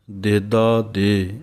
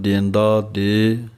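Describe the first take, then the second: First: ਦੇਦਾ said plainly with no nasal sound, slowly; ਦੇਦਾ without nasal. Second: ਦੇਂਦਾ said with a nasal sound on the first syllable, slowly. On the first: Teacher shows correct ਦੇਦਾ to students, slow. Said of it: "ਮੁੱਖ ਪਾਠ ਦੇਦਾ ਦੇ ਬਿੰਦੀ ਤੋਂ ਬਿਨਾਂ ਹੈ". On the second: Teacher shows the nasal variant ਦੇਂਦਾ some recite. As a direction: give ਦੇਂਦਾ a nasal vowel. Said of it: "ਕਈ ਸਿੰਘ ਬਿੰਦੀ ਦੇ ਨਾਲ ਵੀ ਪੜ੍ਹਦੇ ਹਨ". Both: Shown as a demonstration.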